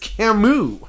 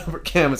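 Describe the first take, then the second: First: The name is said differently from its written form. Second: The name is said the way it looks written. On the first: The speaker calls it right. "it's Camus" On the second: The speaker calls it wrong. "His name looks like it's Albert Camus"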